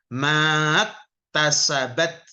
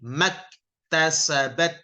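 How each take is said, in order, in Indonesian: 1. Vokal pertama dipanjangkan. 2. Vokal pertama pendek, langsung berlanjut. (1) "Bukan maktasabat" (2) "langsung masuk"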